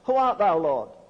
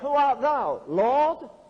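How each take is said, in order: First: It is read flatly, without expression. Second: It is read with strong feeling.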